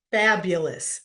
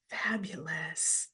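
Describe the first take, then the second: First: Said in the usual way. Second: Slow breathy whisper of fabulous. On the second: Real, not acted. Host savouring a chat answer, slow whisper of fabulous.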